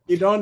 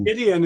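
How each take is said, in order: First: The name is said the Hebrew way. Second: The name is said the English way. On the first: This is the original form of the name. "Gidon is the the Hebrew pronunciation" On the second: This is the family's informal version of the name. "Gideon is fine"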